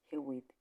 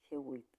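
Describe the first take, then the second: Both takes have the same delivery.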